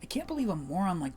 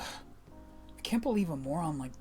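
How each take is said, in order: First: The voice is kept at a lighter, higher tone. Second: The voice drifts toward a laid-back surfer-dude sound. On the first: The speaker calls it right. "keep the tone of the voice at this level. Maybe a bit lighter" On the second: The speaker calls it wrong. "It's slowly changing back to the... Slowly changing back to the surfer dude voice"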